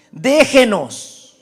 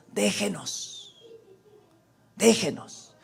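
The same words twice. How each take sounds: First: Drawn-out cry, moderately raised; demon's slow, pleading outcry. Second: Slow, subdued plea; hushed, drawn-out request to be left alone; soft petition. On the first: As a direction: call it out long, falling at the end. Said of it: "Este gritó". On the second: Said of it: "la petición de ellos". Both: Acted.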